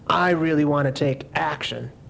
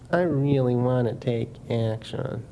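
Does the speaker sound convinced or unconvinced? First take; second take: convinced; unconvinced. First: It is said in a convinced, committed way. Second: It is said in an unconvinced, half-hearted way. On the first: The speaker truly means to act. The speaker calls it right. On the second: The speaker does not truly mean to act. The speaker calls it wrong.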